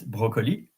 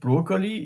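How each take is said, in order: First: It is said with a French pronunciation. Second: It is said with an English pronunciation. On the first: The speaker calls it right. "it's broccoli" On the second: The speaker calls it wrong. "So it is not broccoli"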